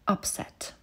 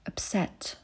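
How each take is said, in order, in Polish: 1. Akcent pada na pierwszą sylabę. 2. Akcent pada na drugą sylabę.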